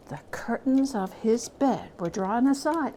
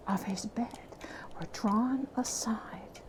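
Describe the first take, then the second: First: Said in the usual way. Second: Hushed whisper, fading away; suspenseful ghost story whisper. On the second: A narrator's reading. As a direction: let it fall to a breath.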